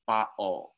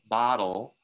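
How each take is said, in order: First: The middle t is a glottal stop. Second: The middle t is a quick tap. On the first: This is how some other varieties say it. "So that's the glottal stop" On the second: This is the speaker's own variety. "So I use a tap sound in my variety"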